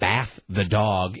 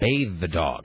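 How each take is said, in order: First: The first word sounds like 'bath'. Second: The first word sounds like 'bathe'. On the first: "people in Utah say bath the dog" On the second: "instead of bathe the dog"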